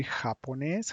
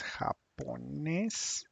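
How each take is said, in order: First: Said in the usual way. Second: "japonés" drawn out in separate syllables, rising at the end; slow, syllable by syllable. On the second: Shown as a demonstration. Spanish teacher repeats the new word "japonés" for students, slowly and syllable by syllable. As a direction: stretch "japonés" out slowly for learners.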